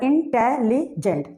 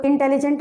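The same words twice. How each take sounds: First: इंटेलिजेंट chopped into in, te, li, jent; split into syllables. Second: Said in the usual way. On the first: Shown as a demonstration. Teacher showing more than two syllables, इंटेलिजेंट split as in-te-li-jent. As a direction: say इंटेलिजेंट syllable by syllable with small gaps. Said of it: "इंटेलिजेंट में भी क्या हो रहा है". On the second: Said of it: "अगर मैं कहूँ इंटेलिजेंट".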